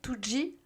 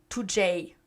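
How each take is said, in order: First: The final letter is said as G. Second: The final letter is said as J. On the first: This may be the official way to say it. "peut-être que ça se dit two G" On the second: This is how the speaker personally says it. "moi je dis two J"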